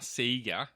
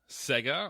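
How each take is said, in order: First: The name is said in an Australian way. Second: The name is said in a non-Australian way.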